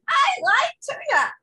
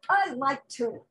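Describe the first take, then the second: First: It is said in a put-on voice. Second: It is said in his normal voice.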